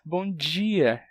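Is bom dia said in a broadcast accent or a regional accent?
broadcast. It is said in the standard television accent. "que eles pronunciam bom dia"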